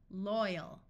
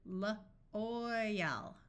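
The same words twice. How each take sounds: First: Said in the usual way. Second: L-oil said in parts, L then oil; sounded out. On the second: Shown as a demonstration. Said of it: "L-oil, loyal".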